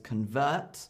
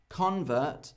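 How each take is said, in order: First: The stress is on the second syllable. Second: The stress is on the first syllable. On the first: It is a verb: to change. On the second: It is a noun: a person who converted.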